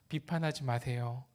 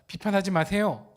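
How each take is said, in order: First: It is said softly and gently. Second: It is said strongly and forcefully.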